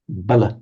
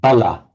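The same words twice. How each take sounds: First: The final vowel is a very short uh. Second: The final vowel is a full open ah. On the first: "becomes a very short uh" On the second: "which would in Sanskrit and Pali be pronounced as an ah"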